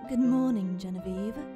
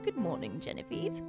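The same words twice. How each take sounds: First: It is said in a put-on feminine voice. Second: It is said in a plain, non-feminine voice.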